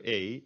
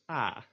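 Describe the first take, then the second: First: "a" short, made in the back of the mouth; lax back vowel. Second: "a" drawn out, made further forward in the mouth; tense front vowel. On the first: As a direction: say "a" briefly, far back in the mouth. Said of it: "It's kind of in the back of your". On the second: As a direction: hold "a" longer, toward the front of the mouth. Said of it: "It's more in the front of your mouth". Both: Shown as a demonstration.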